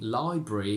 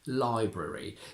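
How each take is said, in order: First: The schwa is dropped, leaving a single R. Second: A schwa is pronounced before the final syllable. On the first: It sounds formal and old-fashioned. "a little bit more formal and old-fashioned" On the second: It sounds current and young. "It's more current and young to keep the schwa"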